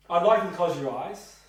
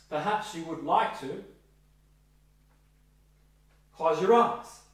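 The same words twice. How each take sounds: First: Firm, louder "I'd like you to close your eyes"; directive instruction. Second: "Perhaps you would like to", long pause, "close your eyes"; softened with pause. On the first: Trainee practising a directive instruction to a client, firm. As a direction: give it as a clear order. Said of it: "Be directive". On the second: Trainee softening the instruction, paused. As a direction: soften with a beat. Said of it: "change that to". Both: Shown as a demonstration.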